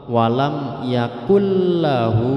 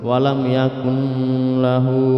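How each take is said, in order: First: The n disappears, merging into a doubled l. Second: The n is pronounced with a nasal hum. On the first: The speaker calls it right. "harus dibaca langsung masuk ke huruf lam" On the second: The speaker calls it wrong. "dibaca berdengung ... itu juga tidak boleh"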